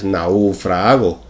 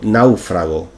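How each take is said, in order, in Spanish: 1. El acento está en la segunda sílaba. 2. El acento está en la primera sílaba. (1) "Sería incorrecto" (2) "con tilde en la primera sílaba"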